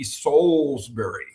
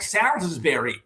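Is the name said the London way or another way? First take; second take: London way; another way. First: The name is said the London way. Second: The name is said in a non-London way. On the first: The speaker calls it right. "if you were in London, it would be Salisbury" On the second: The speaker calls it wrong. "mispronounce my name"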